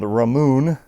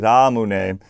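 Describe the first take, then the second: First: The word ends with a long 'moon' sound. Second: The word ends with a 'neh' syllable. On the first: The speaker calls it wrong. "sometimes called Ramoon in the United States. People just don't know how to pronounce it" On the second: The speaker calls it right. "but it's actually Ramune"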